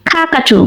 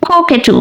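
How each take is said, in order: First: American-accent "কাকাটু" with an ah in the first syllable; American pronunciation. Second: British-accent "কোকেটু" with an oh-like first syllable; British pronunciation. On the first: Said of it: "American অ্যাকসেন্টে বলা হয় কাকাটু". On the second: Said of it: "British অ্যাকসেন্টে বলা হয় কোকেটু". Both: Shown as a demonstration.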